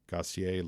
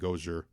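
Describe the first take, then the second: First: The name is pronounced the French way. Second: The name is pronounced the Chicago way. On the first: "like if you're pronouncing it like French" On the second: "like you're pronouncing it from the south side of Chicago"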